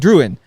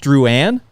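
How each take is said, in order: First: The name is read the plain English way. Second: The name is said the French Canadian way. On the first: The speaker calls it wrong. "So you'd be like Druin" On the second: The speaker calls it right. "with the like French Canadian way of pronouncing it"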